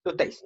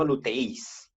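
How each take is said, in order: First: "luteis" with ei as one syllable, stressed on e. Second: "luteis" split as lu-te-ÍS, i stressed; stress on final I. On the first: Teacher modelling the right pronunciation, "luteis" stressed on the e. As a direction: lean on the e in "luteis", gliding into i. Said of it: "se pronuncia como si estuviera sobre la primera". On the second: Teacher showing the mistake, "luteis" stressed on a separate final i. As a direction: break the diphthong in "luteis" and hit the i. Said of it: "no luteis". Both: Shown as a demonstration.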